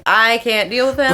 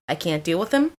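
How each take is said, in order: First: Fed-up declaration at talking volume; emphatic exasperation. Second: Low, soft, weary aside; understated exasperation. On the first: Girlfriend complaining that he's drunk, openly exasperated. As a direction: state it firmly, fed up. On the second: Girlfriend confiding about her drunk boyfriend, low and resigned. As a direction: give up under your breath, pitched down. Girlfriend fed up, retold, first take. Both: Retold or imitated.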